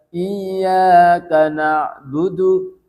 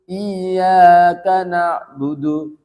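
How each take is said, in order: No difference in how they are said.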